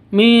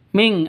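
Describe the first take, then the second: First: It ends in a plain vowel, no nasal. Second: It ends in a nasal ng sound. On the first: The speaker calls it wrong. "bukan seperti itu" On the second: The speaker calls it right. "harus ming ada berubah mati menjadi ng"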